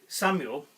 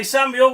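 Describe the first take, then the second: First: Said in the usual way. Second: Higher, louder SAMUEL as a cue. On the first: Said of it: "every time that we say". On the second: Shown as a demonstration. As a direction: call out the name to prompt the group. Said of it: "So when I say".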